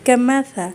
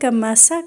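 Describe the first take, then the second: First: The middle consonant is a soft 'th' sound. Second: The middle consonant is an 's' sound. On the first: The speaker calls it right. "अब यहाँ देखिए ये भी सा है।" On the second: The speaker calls it wrong. "अगर आपने हल्का सा भी कमसा कर दिया ना"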